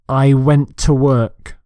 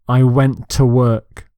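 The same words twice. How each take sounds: Both takes have the same delivery.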